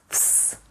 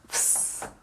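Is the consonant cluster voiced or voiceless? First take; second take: voiceless; voiceless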